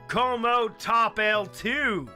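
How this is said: It is said with an English accent. "if you're English"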